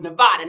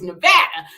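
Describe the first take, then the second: First: It uses the outsiders' pronunciation of the name. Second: It uses the locals' pronunciation of the name. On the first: The speaker was not yet from the state. The speaker calls it wrong. "when I wasn't from that, ... it was Nevada" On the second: The speaker now lives in the state. The speaker calls it right. "Now that I'm from here, it's Nevada"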